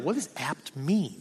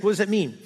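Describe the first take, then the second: First: Soft, slow puzzled mutter; muttered question. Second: Said in the usual way. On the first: Retold or imitated. Looking up a word, wondering quietly to himself. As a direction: ask it quietly to yourself. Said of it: "I was like". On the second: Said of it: "I just was curious".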